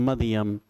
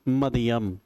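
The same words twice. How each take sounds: The two takes are said the same way.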